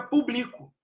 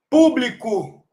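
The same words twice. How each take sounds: First: Publico stressed on the "bli", pu-BLI-co; stress shift demo. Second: Público stressed on the first syllable, PÚ-bli-co; stress shift demo. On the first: Teacher showing students the verb, publico stressed on "bli". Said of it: "fica publico". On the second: Teacher naming the noun for students, Público stressed on "pú". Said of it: "Se eu tirar o acento de público". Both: Shown as a demonstration.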